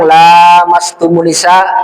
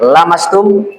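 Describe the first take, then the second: First: The vowel after the L is held long. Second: The vowel after the L is kept short. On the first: It refers to sexual intercourse. "Dibaca panjang" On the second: It refers to touching. "Kalau dibaca pendek"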